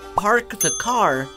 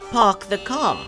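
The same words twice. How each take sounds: First: The R sounds are clearly pronounced. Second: The R sounds are dropped. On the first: This is how English settlers spoke in the early 1600s. "spoke with a hard R sound, meaning they pronounced the R in words like Americans do today" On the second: This is the later fashionable upper-class English way. "instead of"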